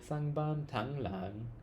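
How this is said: It is said with an American-sounding accent. The speaker calls it wrong. "I'm retreating to the American accent"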